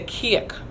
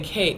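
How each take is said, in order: First: It is said with a Jamaican Patois pronunciation. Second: It is said with a Standard English pronunciation. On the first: "We say cake" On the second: "you would think we say cake"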